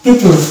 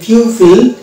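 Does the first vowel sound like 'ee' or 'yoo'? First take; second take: ee; yoo. First: The first vowel sounds like 'ee'. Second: The first vowel sounds like 'yoo'. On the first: The speaker calls it right. "এটা উচ্চারণ হবে পিপল" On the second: The speaker calls it wrong. "কিন্তু এটা পিউপিল না"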